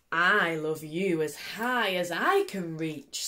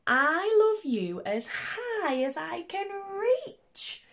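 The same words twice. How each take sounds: First: A calm father answering, unhurried; big hare voice. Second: Very high, slow and stretched, reaching up; the small bunny straining upward, pitched way up; little hare voice. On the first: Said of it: "said big nut brown hare". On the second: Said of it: "said little nut brown hare". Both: Acted.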